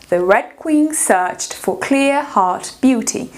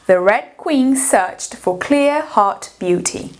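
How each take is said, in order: Both takes have the same delivery.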